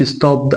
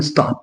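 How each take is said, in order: First: "ستوب" said as "stob-d" with a voiced D; wrong D ending. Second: "ستوب" said as "stopt", crisp voiceless T; T ending. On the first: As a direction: let a D sound close "ستوب". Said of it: "ما اقولش". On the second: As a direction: finish "ستوب" on a T sound, no D. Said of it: "اقول ستوب". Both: Shown as a demonstration.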